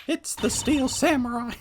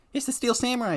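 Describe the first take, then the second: First: Higher put-on Maya voice. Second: Said in the usual way. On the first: Maya bursting in on Nick, higher put-on voice. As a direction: pitch it up as the excited girl. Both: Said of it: "I don't know why I've gone to that voice".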